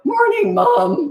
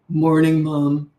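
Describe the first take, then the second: First: It is said in a cracking, boyish voice. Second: It is said in a deep, manly voice.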